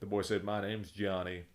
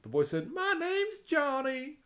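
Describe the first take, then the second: First: Johnny's line is said in a normal voice. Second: Johnny's line is said in a put-on voice.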